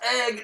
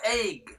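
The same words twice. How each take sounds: First: The vowel is a plain short sound. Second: The vowel glides as if a Y is in it. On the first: The speaker calls it right. "It's pronounced egg" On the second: The speaker calls it wrong. "not egg"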